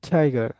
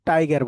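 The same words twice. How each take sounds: First: It is said with an English-style pronunciation. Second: It is said with a Bengali-style pronunciation. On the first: The speaker calls it right. "Right pronunciation আসবে হচ্ছে টাইগার" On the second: The speaker calls it wrong. "আমরা কি সবাই কি বলি? টাইগার বলি"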